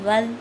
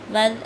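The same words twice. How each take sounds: First: The consonant is a soft th sound. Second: The same.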